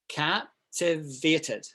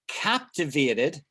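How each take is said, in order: First: It is said slowly. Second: It is said at normal speed.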